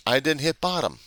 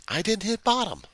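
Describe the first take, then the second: First: Said in the usual way. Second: Pitched up high, straining on bottom; strained high insistence on bottom; emphatic repeat. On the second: Real, not acted. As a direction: lean hard into the word bottom, raising the voice.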